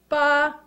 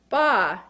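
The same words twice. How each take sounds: First: The pitch stays high and level. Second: The pitch dips low then rises. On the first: "First tone is high-pitched" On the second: "a sound that falls into a hole but then crawls out"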